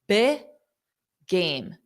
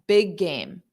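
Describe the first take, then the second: First: There is a pause between the two words. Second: The two words run together without a pause. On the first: The speaker calls it wrong. "To have a pause, that doesn't sound right" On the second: The speaker calls it right. "if you say it without a pause, ... then it sounds correct"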